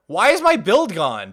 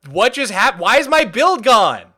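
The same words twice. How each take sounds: First: Said in the usual way. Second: Exasperated. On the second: Real, not acted. Repeating the complaint louder.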